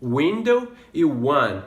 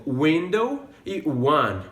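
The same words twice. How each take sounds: First: "Window e one" again with a w start; slow "Window e one"; "one" like "wun"; matched onsets repeated. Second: "window e one", both with a w start; slow "window e one"; the w sound in "window" and "one"; matched onsets. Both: Shown as a demonstration. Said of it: "Olha só, por exemplo".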